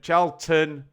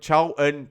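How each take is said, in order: First: The middle T is clearly pronounced. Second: The middle T is dropped for a glottal stop. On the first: The speaker calls it right. "Charlton with a T there" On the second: The speaker calls it wrong. "I'd correct my daughter for that"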